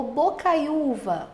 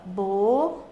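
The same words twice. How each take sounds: First: Said in the usual way. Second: Bocaiúva broken into bo-cai-u-va; long pauses between the syllables of Bocaiúva. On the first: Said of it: "Por exemplo, a palavra". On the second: Shown as a demonstration. Teacher making students notice the vowel, syllable by syllable. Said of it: "que você perceba aqui".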